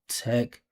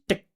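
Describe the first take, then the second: First: The syllable has a full, forward vowel sound. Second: The syllable has a clipped, barely present vowel. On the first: The speaker calls it right. "it needs to have the forward movement and feeling of the vowel" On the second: The speaker calls it wrong. "She's saying technologies, tick, tick, tick. For our ears, that's not a vowel sound"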